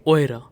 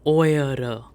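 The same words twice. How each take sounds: First: No extra vowel syllable is said mid-word. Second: An extra vowel syllable is said mid-word. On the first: The speaker calls it right. "but we simply say oira" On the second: The speaker calls it wrong. "if I just add e here, now pronunciation gets very slow"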